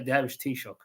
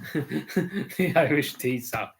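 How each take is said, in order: First: The last word is said in the native way. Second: The last word is said in an anglicized way. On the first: The speaker pronounced the title properly. The speaker calls it right. "She aced it" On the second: The speaker could not pronounce the title. The speaker calls it wrong. "Liz Truss called it the Irish tea sock"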